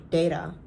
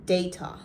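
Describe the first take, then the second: First: "Data" with the T softened to a quick flap; American-style data. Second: "data" with a crisp, true T; British-style T. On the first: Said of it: "maybe I wouldn't say data any-, I would say data". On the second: Vlogger showing her remaining British habit, "data" with a sounded T. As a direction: say "data" as day-tah, T fully sounded. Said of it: "Only sometimes. With a T? ... I would still say". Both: Shown as a demonstration.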